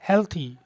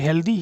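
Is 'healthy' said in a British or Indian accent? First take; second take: British; Indian. First: The word is said with a British accent. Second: The word is said with an Indian accent. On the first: The speaker calls it right. "Exact pronunciation क्या है हेल्थी" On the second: The speaker calls it wrong. "हेल्दी भी गलत नहीं है लेकिन ये Indian accent है"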